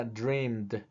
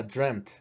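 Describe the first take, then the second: First: "dreamed" with a long ee and a soft final d; "dreamed" ending in a voiced d sound. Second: "dreamt" said with a short vowel and a crisp final t; "dreamt" ending in a clear t sound. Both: Shown as a demonstration. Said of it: "dos formas de pronunciarse".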